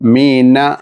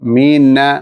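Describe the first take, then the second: The two takes are said the same way.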